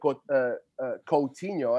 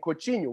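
First: The name is said with English-style sounds. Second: The name is said with Brazilian Portuguese sounds. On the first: The speaker calls it wrong. "I wasn't saying Coutinho" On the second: The speaker calls it right. "which is the way that you're supposed to pronounce his name"

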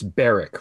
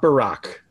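First: The name rhymes with 'Derrick'. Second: The name does not rhyme with 'Derrick'. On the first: The speaker calls it right. "It rhymes with Oil Derrick" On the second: The speaker calls it wrong. "It's not Barack"

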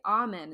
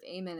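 First: The word is pronounced in a formal way. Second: The word is pronounced in a casual way. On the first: This is how the cartoon characters say it. The speaker calls it right. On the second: This is how the family usually says it. The speaker calls it wrong.

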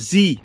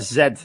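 First: The letter is named zee, American style. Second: The letter is named zed, Canadian style.

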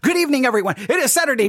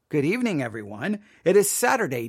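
First: It is spoken quickly and rushed. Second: It is spoken slowly and deliberately. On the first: The speaker calls it wrong. "you're talking over yourself" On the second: The speaker calls it right. "Just slow down. Repeat yourself"

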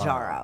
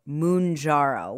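First: The first syllable sounds like 'man'. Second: The first syllable sounds like 'moun'. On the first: This is how the TV commercial says the name. "It's Manjaro. ... like manja" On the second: This is how friends say the name. "Albert and Kyle pronounce it Mounjaro, which I prefer"

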